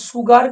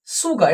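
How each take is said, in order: First: সুগার with the final R sounded, "sugar-r"; mispronounced সুগার. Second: সুগার ending in an open "-ga", R silent; correct সুগার. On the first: Teacher showing what it is not, সুগার with audible R. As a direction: say সুগার wrongly, pronouncing its last R. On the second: Teacher models the word for students, silent-R সুগার. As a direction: say সুগার as "suga", dropping the R. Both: Shown as a demonstration. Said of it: "এটা সুগার কিন্তু নয়".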